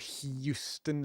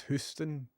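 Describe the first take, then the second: First: Houston said as hyoo-ston, with a Y sound; wrong pronunciation. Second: Houston said as hoo-ston, no Y sound; right pronunciation. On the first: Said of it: "it's Houston". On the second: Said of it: "He put a Y in there". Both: Shown as a demonstration.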